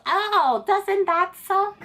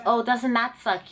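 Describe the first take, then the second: First: High, drawn-out fake sympathy; taunting examiner impression, pitched way up; mock gloating. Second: Said in the usual way. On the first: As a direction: gloat in a slow sing-song put-on voice. Mocking examiner gloats at failure.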